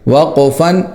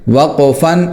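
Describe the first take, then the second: No difference in how they are said.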